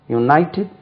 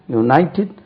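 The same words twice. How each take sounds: The two takes are said the same way.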